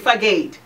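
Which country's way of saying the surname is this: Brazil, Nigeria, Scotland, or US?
US. The surname is said the American way. "here, some say"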